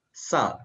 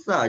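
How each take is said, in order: First: It begins with a plain hissing s sound. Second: It begins with a lisped th-like sound. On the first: "dia akan bunyi sa" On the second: "dia tak akan bunyi sa"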